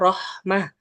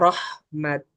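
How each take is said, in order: First: The word ends with a soft 'h' sound. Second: The word ends with a 't' sound. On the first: The speaker calls it right. "ketika waqaf kita bacanya rahmah" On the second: The speaker calls it wrong. "bakalan tidak membaca rahmat"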